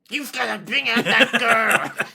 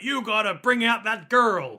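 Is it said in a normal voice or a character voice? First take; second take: character voice; normal voice. First: It is said in the character's put-on voice. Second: It is said in the speaker's normal voice.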